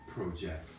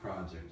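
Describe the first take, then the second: First: The stress is on the second syllable. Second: The stress is on the first syllable. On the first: It is used as a verb. "if you're using it as a verb" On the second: It is used as a noun. "pro, pro, project, work, project, that's noun"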